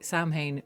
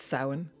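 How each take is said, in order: First: It is said following its written spelling. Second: It is said unlike its written spelling. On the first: The speaker calls it wrong. "Samhain makes me twitch" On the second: The speaker calls it right. "It's Samhain"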